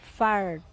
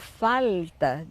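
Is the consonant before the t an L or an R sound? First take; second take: R; L. First: A curled R sound comes before the t. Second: An L sound comes before the t. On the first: This is the form it later became. "Ele foi elevando a língua para a parte posterior" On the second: This is the older form of the word. "o falta deu um farta"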